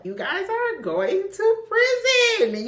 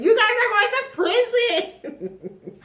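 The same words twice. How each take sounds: First: Much higher, slow, mock-stern sing-song; mock scolding. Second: Even higher, laughing through it; laughing mock scold. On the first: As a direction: wag a finger at the characters, high and drawn out. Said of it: "scolding the book's criminals". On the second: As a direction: scold them while cracking up. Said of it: "repeats laughing".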